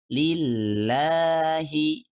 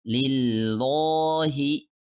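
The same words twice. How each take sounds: First: The L sound is thin and light. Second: The L sound is thick and heavy. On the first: The speaker calls it right. "menipiskan huruf lam tersebut" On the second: The speaker calls it wrong. "menebalkan huruf lamnya seperti contoh lillahi"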